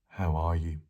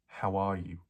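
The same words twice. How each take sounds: First: It is said at a lower pitch. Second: It is said at a normal pitch.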